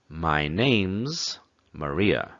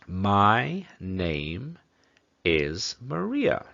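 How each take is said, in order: First: Name and is are joined into one sound. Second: Name and is are said as separate words.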